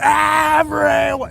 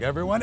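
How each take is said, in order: First: The word is screamed very loudly. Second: The word is said at normal volume.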